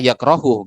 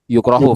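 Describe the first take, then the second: First: The first syllable has the vowel a. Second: The first syllable has the vowel u. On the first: The speaker calls it wrong. "Jadi jangan dibaca karoha atau dibaca yakrohu, nggak bisa" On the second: The speaker calls it right. "maka dibaca kuriha atau yukro yukrohu"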